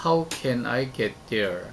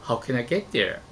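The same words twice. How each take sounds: First: "How can I get there?" said evenly, with no word stressed, very slow; flat Korean-style English. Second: "How can I get there?" with a strong beat on get and the rest reduced; stressed English. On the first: Teacher demonstrating flat unstressed English, very slow. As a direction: give every syllable of "How can I get there?" the same weight, like Korean. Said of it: "라고 한국어처럼 발성합니다". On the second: Teacher demonstrating natural stressed English. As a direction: punch "get" in "How can I get there?" and let the other words slide. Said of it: "같이 강세를 넣어 발성하는".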